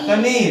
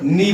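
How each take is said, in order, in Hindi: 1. यह शब्द k ध्वनि से शुरू होता है। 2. यह शब्द n ध्वनि से शुरू होता है। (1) "इसका शुद्ध उच्चारण क्या हो गया?" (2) "लेकिन हम इसको क्या बोलते हैं? नी बोलते हैं।"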